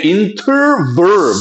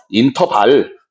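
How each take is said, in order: First: 인터벌 slow and higher, with English R and V; exaggerated English pronunciation. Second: Said in the usual way. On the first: Shown as a demonstration. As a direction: stretch 인터벌 into English "in-terr-verr". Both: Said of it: "발음 중요해".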